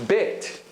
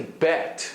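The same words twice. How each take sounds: First: "bit" as a closer eh, between bet and bait; Israeli vowel. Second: "bet" with a wide English eh; non-Israeli open vowel. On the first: Teacher showing what Israelis say, closed Israeli eh. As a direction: narrow the e in "bit" towards ay, without gliding. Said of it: "the Israeli form of both these vowels". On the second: Teacher showing how Israelis don't say it, open bet. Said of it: "They don't pronounce it like that". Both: Shown as a demonstration.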